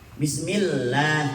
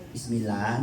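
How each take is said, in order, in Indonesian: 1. Bunyi L-nya bertasdid dan dibaca panjang. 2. Bunyi L-nya tidak bertasdid dan dibaca pendek. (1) "Bismillah gitu" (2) "Jangan bismillah"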